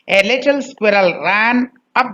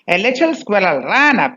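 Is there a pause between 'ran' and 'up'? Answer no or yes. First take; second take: yes; no. First: There is a break between ran and up. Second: Ran and up are joined without a break. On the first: The speaker calls it wrong. "Do not separate ran and up" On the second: The speaker calls it right. "it should be ran up together"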